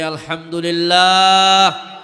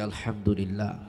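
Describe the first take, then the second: First: It is said more loudly. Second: It is said at normal volume.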